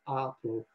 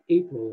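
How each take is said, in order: First: It has the older Middle English vowel sound. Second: It has the modern English vowel sound.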